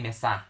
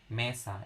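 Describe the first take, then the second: First: The stress is on the last syllable. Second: The stress is on the first syllable. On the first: The speaker calls it wrong. "You don't say mesa" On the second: The speaker calls it right. "stress the accent here in me"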